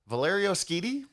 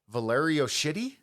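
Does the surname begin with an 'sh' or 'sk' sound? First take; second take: sk; sh. First: The surname begins with an sk sound. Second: The surname begins with an sh sound. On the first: The speaker calls it right. "Better than I was" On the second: The speaker calls it wrong. "so I'm almost certainly wrong on this"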